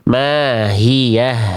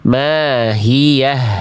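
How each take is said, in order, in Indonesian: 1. Bunyi h-nya jelas, dengan hembusan nafas yang mengalir. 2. Bunyi h-nya jelas, dengan hembusan nafas yang mengalir.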